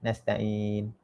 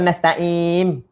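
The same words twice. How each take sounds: First: "Nasta'in" softly, ending on a clear n; correct final n. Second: "nasta'in" loud, closed on m as nasta'im; wrong final m. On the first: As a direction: end "Nasta'in" with the tongue up on n. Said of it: "Sebab nun mati kan". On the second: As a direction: shut the lips at the end of "nasta'in" for an m. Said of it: "Nanti bunyi mim". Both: Shown as a demonstration.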